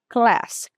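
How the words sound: A short flat American vowel is used. "O americano fala class"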